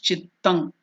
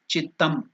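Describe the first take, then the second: First: The word ends with an ng nasal sound. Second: The word ends with an m nasal sound. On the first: "Then there is the anuswara, it becomes chittang" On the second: "so that anuswara become papa baba ma, chittam. So now you can use ma here"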